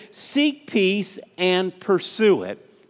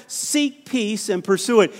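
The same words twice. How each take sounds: First: Each word of Seek peace and pursue it laid down slowly and weighted; slow stressed scripture. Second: Said in the usual way. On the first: Shown as a demonstration. Preacher reading the verse to the congregation, slow and weighted. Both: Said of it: "Did you get that?".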